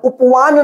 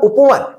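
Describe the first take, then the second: First: The final vowel is a long aa. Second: The final vowel is a short a. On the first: The speaker calls it wrong. "उपवान नहीं होगा" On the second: The speaker calls it right. "उपवान क्या होगा उपवन"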